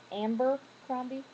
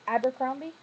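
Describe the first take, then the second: First: The name begins with 'Amber' with an m. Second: The name begins with 'Aber' without an m. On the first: The speaker calls it wrong. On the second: The speaker calls it right.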